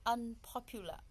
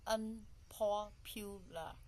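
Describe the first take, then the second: First: Said in the usual way. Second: "unpopular" broken slowly into four syllables. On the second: Shown as a demonstration. Teacher counting out the four syllables of "unpopular", syllable by syllable. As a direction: say "unpopular" slowly, a gap after each syllable. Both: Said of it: "So we put in four syllable".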